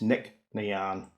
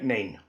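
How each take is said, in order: First: It ends in two syllables sounding like 'nee-an'. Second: It ends in one syllable sounding like 'name'. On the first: The speaker calls it right. "That's the proper pronunciation" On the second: The speaker calls it wrong.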